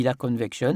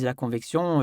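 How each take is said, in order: First: "convection" with an open "kɔn" and a "kʃɔ" ending; oral convection. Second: "convection" with a nasal "con" and "ksjɔ̃" ending. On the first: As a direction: say "convection" as "kɔnvɛkʃɔ". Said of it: "lui il dit la convection". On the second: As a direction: say "convection" as "kɔ̃vɛksjɔ̃". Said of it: "il y en a un qui dit la convection". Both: Retold or imitated.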